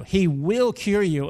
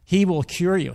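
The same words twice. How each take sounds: First: Slow, "will" leaned on firmly; "He will cure you" with "will" stressed as a promise. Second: Said in the usual way. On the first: Shown as a demonstration. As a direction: repeat it slowly and press "will". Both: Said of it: "Just like she says here".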